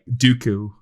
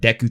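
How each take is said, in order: First: The first vowel sounds like 'do'. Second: The first vowel sounds like 'day'. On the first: "we will call it like Dooku" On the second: "these bush monsters called Deku"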